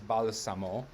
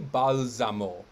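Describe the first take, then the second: First: The s is unvoiced, sounding like s. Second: The s is voiced, sounding like z. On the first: The speaker calls it right. "but no, it is balsamo" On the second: The speaker calls it wrong. "looks to me like it should be balsamo"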